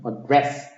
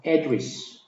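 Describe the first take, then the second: First: "address" said slowly with a weak a and a strong DRESS; stress on DRESS, slow. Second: "address" with the first syllable AD hit hard; stress on AD. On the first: Teacher shows the verb slowly to students, stress on DRESS. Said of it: "뒤에가 강하게 돼가지고". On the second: Teacher shows the noun to students, stress on AD. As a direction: punch AD, let "dress" fall away in "address". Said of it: "여기를 강하게 발음하면". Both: Shown as a demonstration.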